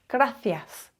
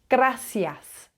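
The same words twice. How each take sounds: First: The middle consonant is a th sound. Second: The middle consonant is an s sound. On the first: This is how it is said in Europe. "The th" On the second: This is how it is said in Latin America. "you drop the th and it becomes s"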